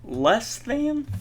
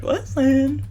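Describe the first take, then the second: First: Voice crack. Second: Said in the usual way. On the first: Real, not acted. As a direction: voice cracking up high. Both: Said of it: "ooh, voice crack".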